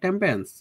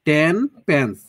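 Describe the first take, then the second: First: It ends in m, running smoothly into pence. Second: It ends in n, with a break before pence. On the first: "আমরা বলতে পারি টেম্পেন্স" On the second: "এত এত ভেঙে ভেঙে সময় নিয়ে"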